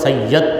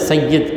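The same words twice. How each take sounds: First: The final syllable has an 'a' vowel. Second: The final syllable has an 'i' vowel. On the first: This is how Urdu speakers say it. "Urdu वाले सैयद बोले" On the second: This is the original form of the word. "असल लफ्ज़ है"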